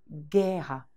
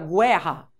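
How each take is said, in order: First: No w sound is heard after the g. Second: A w sound is heard after the g. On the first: The speaker calls it right. "Cadê o som do U? Eu não ouvi" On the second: The speaker calls it wrong. "Você fala guerra?"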